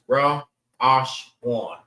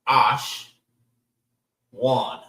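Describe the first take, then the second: First: Each syllable is separated by a pause. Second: The syllables run together without pauses.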